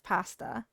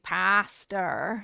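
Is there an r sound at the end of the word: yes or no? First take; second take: no; yes. First: The word ends without an r sound. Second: The word ends with an r sound. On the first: This is the usual way of saying it. "instead of pasta" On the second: This is how the speaker said it growing up. "I used to say pastor"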